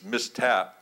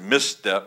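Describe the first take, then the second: First: The second syllable sounds like 'tap'. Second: The second syllable sounds like 'step'. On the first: The speaker calls it right. "but it's mistap" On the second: The speaker calls it wrong. "I pronounced it misstep"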